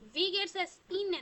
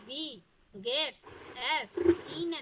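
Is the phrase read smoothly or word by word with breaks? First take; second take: smoothly; word by word. First: The words run together smoothly without breaks. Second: Each word is read separately with breaks. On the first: "যেমন আমরা যে বলি" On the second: "এটাকে আমরা এভাবে বলি ভি গেটস এস ইন, এভাবে বললে হবে?"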